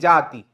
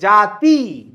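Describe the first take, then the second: First: The final vowel is kept short. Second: The final vowel is drawn out long. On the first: The speaker calls it right. "जोर नहीं डालना है" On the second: The speaker calls it wrong. "अब इसको आप जाति नहीं पढ़ सकते"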